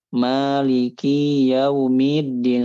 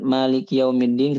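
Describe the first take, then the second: First: A short vowel is stretched out long. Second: Its short vowels are kept short. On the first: The speaker calls it wrong. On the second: The speaker calls it right.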